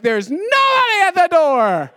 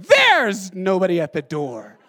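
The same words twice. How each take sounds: First: Huge stress on nobody, high, loud and stretched; hammed-up line that blasts out nobody; Grant. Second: Heavy stress on There's, stretched and loud; Grant. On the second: Retold or imitated. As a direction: punch There's, then slow through the rest. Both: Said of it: "emphasize different words".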